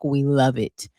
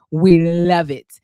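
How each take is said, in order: First: Said in the usual way. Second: "We love it" loud and drawn out; stretched, punched-up "We love it"; emphatic repeat. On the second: Retold or imitated. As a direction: lean hard and slow on "love". Repeats praise with heavy emphasis.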